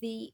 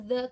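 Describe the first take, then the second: First: The word ends in a long 'ee' vowel. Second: The word ends in a short 'uh' vowel. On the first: This form comes before a vowel sound. "kenapa jadi the?" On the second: This is the usual form of the word. "Kan harusnya the"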